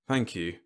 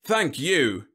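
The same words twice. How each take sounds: First: Understated, weary thanks; sighing. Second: High, loud, gratified thanks; raised, beaming self-satisfaction; glowing. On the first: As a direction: say it with a resigned sigh. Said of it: "Whitlow sighed". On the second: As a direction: glow with pleasure at the praise. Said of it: "General Webb glowed". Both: A narrator's reading.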